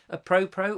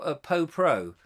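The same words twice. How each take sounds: First: "pro pro" with an r in both syllables; pronunciation option. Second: "po pro" with no r in the first syllable; pronunciation option. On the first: Trying out a word aloud, "pro pro" with both r's. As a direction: say "pro pro", keeping the first r. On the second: Trying out a word aloud, "po pro" without the first r. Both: Shown as a demonstration. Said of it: "Is that how it's said?".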